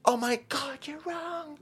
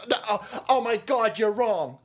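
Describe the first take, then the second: First: Much higher, wailing, trailing off to nothing; shrill mock whine. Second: Mock flustered protest, a little higher; flustered protester. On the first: Protester protesting again, higher wailing mock whine. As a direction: squeal the protest as it collapses. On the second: Protester flustered at being told off, mock protest. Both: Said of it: "The guy".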